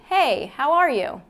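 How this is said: The voice is low and resonates in the chest. "one's the chest voice"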